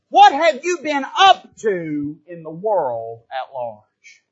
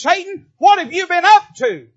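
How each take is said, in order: First: Slow, lower, measured voice of God; God questioning Satan. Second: Higher, louder demanding call to Satan; God demanding. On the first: Preacher voicing God questioning Satan, slow and solemn. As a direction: draw it out like a solemn judge. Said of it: "he's looking at him and saying". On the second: Preacher voicing God calling Satan out, loud and high. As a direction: ring it out like a summons. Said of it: "God looks at Satan and says". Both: Retold or imitated.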